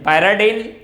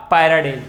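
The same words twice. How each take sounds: First: पैराडिल said with a closing "-en", like pyridine; first pronunciation. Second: पैराडिल said with a closing "-el", like pyridyl; second pronunciation. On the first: Teacher to students, showing the first name variant, "-en" ending. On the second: Teacher to students, showing the second name variant, "-el" ending. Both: Shown as a demonstration. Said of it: "पैराडिन या पैराडिल".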